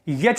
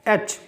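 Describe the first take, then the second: First: It begins with a y sound. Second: It begins with a plain vowel sound. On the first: The speaker calls it wrong. "यच नहीं है" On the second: The speaker calls it right. "This is एच"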